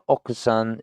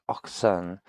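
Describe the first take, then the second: First: The u after k is clearly pronounced. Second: The u after k is silent. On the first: The speaker calls it wrong. "it's not okusan" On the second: The speaker calls it right. "we don't necessarily pronounce the u"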